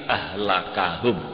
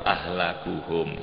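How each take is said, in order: First: The vowel after the k is 'a'. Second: The vowel after the k is 'u'. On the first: That person is the one who ruins them. "nasab kap berarti ahlakahum" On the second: That person is the one most ruined. "den waca ropak kafe lapat ahlakuhum"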